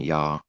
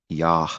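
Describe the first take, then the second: First: The word ends without an audible h sound. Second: The word ends with an audible h sound. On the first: The speaker calls it wrong. "it's not even Yah" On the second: The speaker calls it right. "Yah with an H sound"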